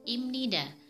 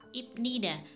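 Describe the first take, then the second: First: The middle consonant is a nasal m sound. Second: The middle consonant is a b sound. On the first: The speaker calls it right. "Yang benar dibaca imnida" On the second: The speaker calls it wrong. "tapi salah"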